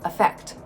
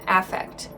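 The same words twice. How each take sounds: First: It is given the verb pronunciation. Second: It is given the noun pronunciation. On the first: It names an action of influencing. "the pronunciation is different from the verb affect" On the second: It names a display of emotion. "let's look at the noun affect. Note the pronunciation change"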